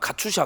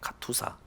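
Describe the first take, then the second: First: The last syllable is pronounced 'sha'. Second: The last syllable is pronounced 'sa'. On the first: The speaker calls it wrong. "어떤 사람은 카투샤, 카투샤 이렇게 얘기하는데" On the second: The speaker calls it right. "카투사예요"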